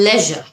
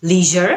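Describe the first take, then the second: First: "লেজার" as LEH-zhuh; British pronunciation. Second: "লিজার" as LEE-zher; American pronunciation. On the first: Teacher advises British-accent learners, "লেজার" as LEH-zhuh. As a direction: keep a short E in "লেজার". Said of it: "British অ্যাকসেন্টটা follow". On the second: Teacher advises American-accent learners, "লিজার" as LEE-zher. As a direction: stretch the EE in "লিজার". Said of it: "American অ্যাকসেন্টটা follow". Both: Shown as a demonstration.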